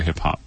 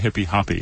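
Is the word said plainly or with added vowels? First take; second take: plain; added vowels. First: Each syllable ends on a plain consonant. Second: Each syllable gets an extra 'ee' vowel added. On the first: This is the usual local pronunciation. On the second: This is how it is said in South America.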